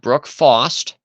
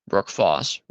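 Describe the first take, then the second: First: The surname ends with a t sound. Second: The surname ends without a t sound. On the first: The speaker calls it wrong. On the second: The speaker calls it right.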